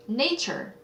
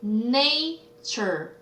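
First: Said in the usual way. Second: "nature" stretched as na, then ture; syllable by syllable. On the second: Shown as a demonstration. Teacher answering a vocabulary question, "nature" drawn out by syllable. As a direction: slowly sound out both halves of "nature". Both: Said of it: "뭐예요?".

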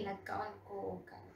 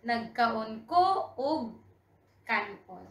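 First: Softer, faster run-through; quick fluent repeat. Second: "Nagkaon ko og kanon" drawn out in pieces; slow model sentence. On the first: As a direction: say it quickly and quietly in one go. Fluent repeat of the slow model. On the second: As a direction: pause between words for learners. Slow model, then quick repeat. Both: Shown as a demonstration.

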